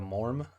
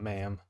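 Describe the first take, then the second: First: The word is said with an R sound. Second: The word is said without an R sound. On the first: The speaker calls it right. "pronounced with an R sound" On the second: The speaker calls it wrong. "It's not ma'am"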